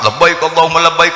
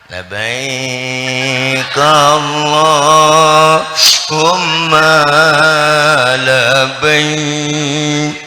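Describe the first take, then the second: First: It is said with spirited, high energy. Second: It is said with flat, low energy.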